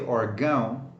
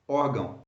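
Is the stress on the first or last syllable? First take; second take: last; first. First: The stress is on the last syllable. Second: The stress is on the first syllable. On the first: The speaker calls it wrong. "You don't say órgão, you don't focus on the till" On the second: The speaker calls it right. "But in Portuguese you say órgão"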